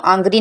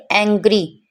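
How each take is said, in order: First: आंग्री opening on "aa"; wrong pronunciation. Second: एंग्री opening on "ae"; correct vowel. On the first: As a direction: say आंग्री as "aang-gree". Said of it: "आंग्री नहीं पढ़ सकते". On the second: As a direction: say एंग्री as "aeng-gree". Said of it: "इसे हम पढ़ेंगे एंग्री". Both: Shown as a demonstration.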